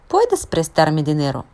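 It is said as a question, rising.

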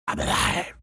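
It is said in a demonic voice.

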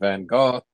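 The name is said with a native pronunciation. The speaker calls it right. "but it's actually Van Gogh"

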